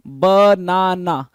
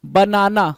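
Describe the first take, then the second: First: बनाना drawn out slowly in three separate syllables. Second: Said in the usual way. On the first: Shown as a demonstration. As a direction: split बनाना into ba, na, na, each one held. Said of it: "word को आप टुकड़ों में बांट दे रहे हो". (बनाना को धीरे-धीरे, हर syllable अलग करके) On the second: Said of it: "पूरा एक साथ बोलते हैं".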